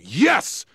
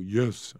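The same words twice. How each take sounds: First: It is yelled loudly and strongly. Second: It is said quietly and weakly.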